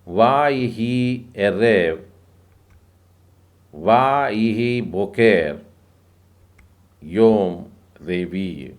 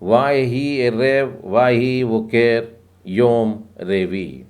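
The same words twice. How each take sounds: First: The verse is read at a slower pace. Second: The verse is read at a fast pace.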